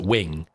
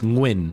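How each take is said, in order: First: It begins with a plain w sound. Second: It begins with an ng sound before the w. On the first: The speaker calls it wrong. "or they pronounce it Wing, and it's it's not Wing" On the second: The speaker calls it right. "It's Nguyen, ... the ng sound"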